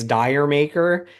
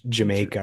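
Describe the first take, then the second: First: It starts with a 'dire' sound, like 'dire maker'. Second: It starts with a 'j' sound, like 'Jamaica'. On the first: "you people say it's Dire Maker" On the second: "in the U K they don't say Dire Maker, they say it like"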